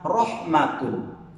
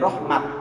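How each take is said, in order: First: The word ends with a t and -un. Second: The word ends with a t sound. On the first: "ada kalimat rahmatun" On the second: "tidak menjadi rahmat"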